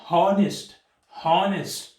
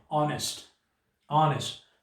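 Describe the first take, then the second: First: "हॉनेस्ट" with a strong H at the start; H wrongly sounded. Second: "ऑनेस्ट" starting on the O vowel; silent H. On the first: Teacher showing the mistaken reading, "हॉनेस्ट" with H pronounced. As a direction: hit the H that opens "हॉनेस्ट". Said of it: "अगर हम इसको pronounce करेंगे". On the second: Teacher giving the right reading, "ऑनेस्ट" with no H. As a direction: leave out the H, open "ऑनेस्ट" on O. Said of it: "इसको एच से नहीं करते". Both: Shown as a demonstration.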